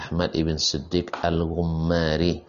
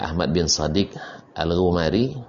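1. Kata setelah Ahmad diucapkan 'ibn'. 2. Kata setelah Ahmad diucapkan 'bin'. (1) "yang benar adalah" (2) "sebagian orang membaca"

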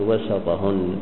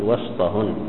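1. يتبع صوت s حركة قصيرة. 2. يتبع صوت s مباشرة صوت t، لا يوجد حرف علة. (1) "ما يصح فإنك تقول وسطهن، فتقول وسط بتحريك" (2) "ما دام صح كلمة بينهن فتقول وسطهن"

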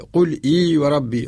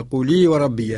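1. تُسمع همزة قبل 'iy'. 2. تتصل الحركة بـ'qul' دون همزة قبلها. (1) "قل وحدها إي وحدها" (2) "لأقرأ لورش نقول"

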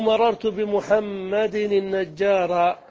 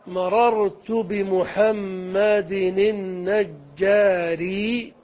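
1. تنتهي الكلمة الأخيرة بالحركة a. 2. تنتهي الكلمة الأخيرة بالحركة i. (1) "على القطع بالنصب" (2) "على الإتباع جملة واحدة"

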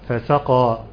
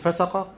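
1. تُشبع الحركات إشباعاً تاماً. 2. تُنطق الحركات قصيرة. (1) "فنقول ايه؟ فسقى" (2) "ينفع نقول فسقى؟ المعنى اختل تماما"

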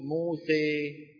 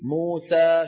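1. الصوت الأخير مائل نحو صوت 'e'. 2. الصوت الأخير هو 'a' مفتوح. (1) "شو بيقول؟ موسى، أسهل عليهم" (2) "بدل ما يقول موسى"

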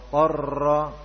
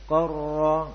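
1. Huruf r bergetar terlalu lama. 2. Huruf r bergetar ringan dan sedang. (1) "ini kebanyakan sifat takrir atau bergetar" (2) "Tetapi tidak berlebihan. Kita baca qarra"

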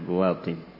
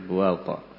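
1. Nama itu berakhir dengan akhiran -in yang sengau. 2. Nama itu berakhir dengan akhiran -a biasa. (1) "Di sini dengan munsharif" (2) "Sebagian kitab dengan la yang sharif"

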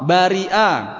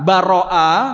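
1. Vokal setelah r adalah 'i'. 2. Vokal setelah r adalah 'a'. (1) "dan juga bisa dengan kasroh" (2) "ro ini bisa dengan fathah"

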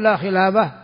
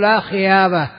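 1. الحرف الصامت في الوسط هو صوت لام واضح. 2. الحرف الصامت في الوسط هو صوت ياء. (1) "قل لا خلابة" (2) "لا يستطيع أن يتلفظ باللام"

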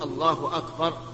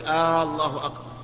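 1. لا يُمَدّ أي حرف علة في الكلمتين. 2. تُمَدّ الحركة الأولى في الله. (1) "لا بد أن يقول الله أكبر" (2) "أن يمد الهمزة"

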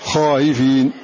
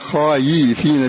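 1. الهمزة المتوسطة مسهلة، وليست ياء واضحة. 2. تتحول الهمزة المتوسطة إلى صوت ياء واضح. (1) "خائفين تسهيل مع المد والقصر" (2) "فلا تقول خايفين خايفين بالإعلاء، لا يجوز هذا"

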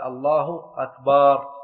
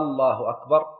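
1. تُمدّ الحركة بعد "b". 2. تُمدّ أول حركة في "الله". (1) "لو مد الباء في أكبر" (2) "لو مد الهمزة في الله"

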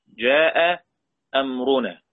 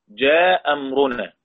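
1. الهمزة الأولى من الهمزتين تُنطق. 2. الهمزة الأولى من الهمزتين تُحذف.

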